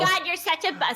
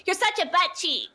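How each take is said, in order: First: Mock kid scolding. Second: High laughing scold; mock kid scolding, laughing. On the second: Redoing the church camp line without God, laughing. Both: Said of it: "sorry, they can't say God".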